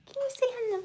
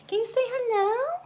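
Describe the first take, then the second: First: Put-on whispered high baby talk to a kitten. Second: Said in the usual way. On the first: Shown as a demonstration. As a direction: breathe it softly to the kitten.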